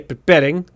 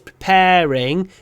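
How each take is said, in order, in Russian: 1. Ударный гласный произносится коротко, отрывисто. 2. Ударный гласный растянут, произносится долго. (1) "не preparing" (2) "Еще здесь preparing ... Надо тянуть"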